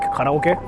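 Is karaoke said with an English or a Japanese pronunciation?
Japanese. It is said with a Japanese-style pronunciation. "instead of like karaoke"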